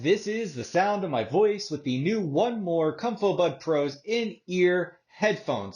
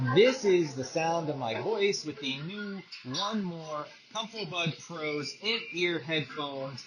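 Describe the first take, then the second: First: The voice is heard without added background noise. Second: The voice is heard over ambient background noise.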